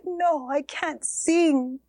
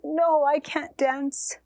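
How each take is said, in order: First: Slow, broken whisper; whispered refusal. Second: Slow, heavy-hearted no; sad refusal. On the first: Mother refuses her children's request to sing, slow whisper. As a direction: barely breathe the words out in grief. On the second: Mother turns down her children's plea to dance, slow and sad. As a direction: drag it out in grief. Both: Acted.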